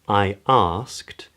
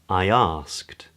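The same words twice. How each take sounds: First: The two words stay separate. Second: A glide sound links the two words.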